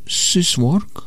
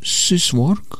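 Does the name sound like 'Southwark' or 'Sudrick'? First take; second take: Southwark; Southwark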